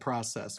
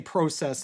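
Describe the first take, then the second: First: The word is said without a Canadian accent. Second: The word is said with a Canadian accent. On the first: "instead of process" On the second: "preach it with a Canadian accent... say process"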